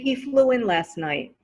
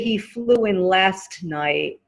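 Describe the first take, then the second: First: The T at the end of 'last' is dropped. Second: The T at the end of 'last' is pronounced. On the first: The speaker calls it right. "So just say" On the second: The speaker calls it wrong. "it's correct, but it's more difficult"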